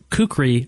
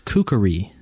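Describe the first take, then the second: First: The word is said with two syllables. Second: The word is said with three syllables. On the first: The speaker calls it wrong. "we pronounce the word kukri, kukri wrong" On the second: The speaker calls it right. "it has three syllables, ... and it is kukri"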